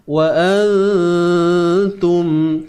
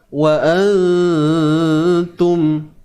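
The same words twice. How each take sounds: Both takes have the same delivery.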